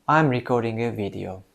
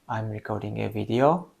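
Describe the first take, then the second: First: The voice falls at the end like a statement. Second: The voice rises at the end like a question. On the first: The speaker seems sure of themselves. The speaker calls it right. "it sounds much more sure, much more certain" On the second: The speaker seems unsure of themselves. The speaker calls it wrong. "you're ending this sentence with a question toning"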